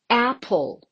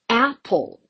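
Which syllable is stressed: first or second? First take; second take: first; first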